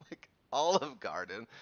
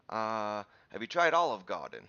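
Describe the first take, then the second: First: Put-on incredulous echo in own accent; amused, questioning disbelief; retold disbelief. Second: Louder, rough attempt at a New York cop's accent; New York accent, dropping the R in Garden. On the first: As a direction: repeat it back as a baffled question. Retold disbelief at cop's tip. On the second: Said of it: "I'm doing some sort of accent".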